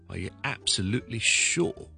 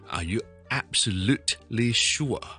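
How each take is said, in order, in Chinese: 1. "absolutely"里的t不发音。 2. "absolutely"里的t要清楚地读出来。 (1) "absolutely 个t 音可以唔读啦" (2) "就唔需要读成咧。"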